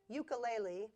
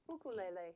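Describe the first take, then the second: First: It uses the common East Coast pronunciation. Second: It uses the Hawaiian, West Coast pronunciation. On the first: "mostly on the East Coast of the United States" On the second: "the way they pronounce it in Hawaii"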